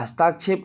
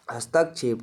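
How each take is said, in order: First: हस्ताक्षेप said with a long aa in the middle, hastaakshep; name हस्ताक्षेप as the wrong long-aa form; wrong form shown. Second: हस्तक्षेप said softly with a short a, hastakshep; correct form shown. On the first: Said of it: "हस्ताक्षेप नहीं होता". (हस्ताक्षेप को लंबे आ के साथ गलत रूप में बोलें) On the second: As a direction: give हस्तक्षेप quietly as the right short-a form. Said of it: "हस्तक्षेप होता है". (हस्तक्षेप को धीमे, छोटे अ के साथ सही बोलें) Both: Shown as a demonstration.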